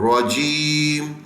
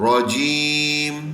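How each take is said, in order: No difference in how they are said.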